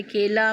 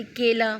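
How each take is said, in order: First: केला said louder, with the stress on के; stressed repeat. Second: केला said very slowly, each sound drawn out; slow example word. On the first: Teacher repeating the word so students catch it, louder. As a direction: punch केला once more, firmly. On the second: Teacher first reading the example word to students, very slow. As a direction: stretch केला out gently. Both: Shown as a demonstration. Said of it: "ए की मात्रा लगी है".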